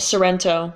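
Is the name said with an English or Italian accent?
English. It has an English R and a gliding O. "How would you say that in English?"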